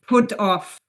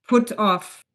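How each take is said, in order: No difference in how they are said.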